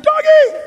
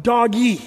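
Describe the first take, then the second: First: Doggy squealed very high and loud; dad re-enacting his son's shriek at the dog; high excited yell. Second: Said in the usual way. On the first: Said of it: "He said". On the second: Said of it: "Joey yelled out".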